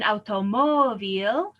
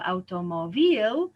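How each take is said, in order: First: "automóvil" with a long, loud MÓ; auto-MÓ-vil, leaning on MÓ in "automóvil"; stress on second-to-last syllable. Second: "automóvil" wrongly stressed as automo-VIL; slow, punched final syllable in "automóvil"; stress moved to last syllable. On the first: Teacher gives the example word, "automóvil" stressed on MÓ. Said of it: "We break the rule". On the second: Teacher shows what we don't say, "automóvil" stressed on the last syllable. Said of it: "so we should say". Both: Shown as a demonstration.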